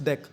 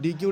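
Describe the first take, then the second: First: It is said as one syllable, 'deck'. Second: It is said as two syllables, 'dee-queue'. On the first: The speaker calls it right. "It's डेक" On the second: The speaker calls it wrong. "It's not डी क्यू"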